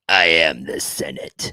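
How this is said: The voice sounds strained and raspy. The speaker calls it right. "his throat gets strained"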